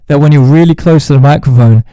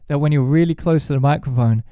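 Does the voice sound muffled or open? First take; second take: muffled; open. First: The voice is very close and sounds muffled. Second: The voice is farther back and sounds open. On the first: The speaker calls it wrong. "It just sounds bad and unbalanced and muffled" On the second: The speaker calls it right. "it sounds a bit more open and a bit better"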